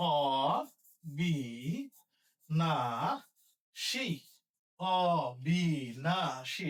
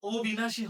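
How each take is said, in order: First: অবিনাশী very slow and low, ɔ-bi-na-shi; open vowel demo. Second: অবিনাশী begun with a closed o, o-bi-na-shi; wrong closed o. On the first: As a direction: open aw at the start of অবিনাশী, each syllable held. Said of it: "এটার উচ্চারণ হবে". (অবিনাশী খোলা অ দিয়ে, ভেঙে ভেঙে) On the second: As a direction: say অবিনাশী quickly with o for the first vowel. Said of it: "অ এর উচ্চারণটা তো". (অবিনাশী-র অ ও-এর মতো) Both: Shown as a demonstration.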